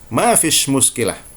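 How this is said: The second word ends with a 'sh' sound. This is how Egyptians say it. "orang Mesir akan mengatakan ma fish muskilah"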